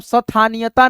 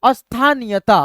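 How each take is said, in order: First: "स्थानीयता" as sa-thaniyata, s given its own vowel; गलत उच्चारण. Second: "अस्थानीयता" with short a before st; अ से शुरुआत. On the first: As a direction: show "स्थानीयता" split after sa. ("स्थानीयता" को स-थानीयता बोलकर) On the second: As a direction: begin "अस्थानीयता" on as, not sa. ("अस्थानीयता" को अस्-थानीयता बोलकर) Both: Shown as a demonstration. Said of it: "मतलब स्थानीयता नहीं".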